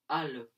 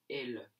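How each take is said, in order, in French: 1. Le pronom se prononce avec la voyelle 'a'. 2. Le pronom se prononce avec la voyelle 'e'. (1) "souvent, à l'oral, on va dire al" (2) "à la place de elle"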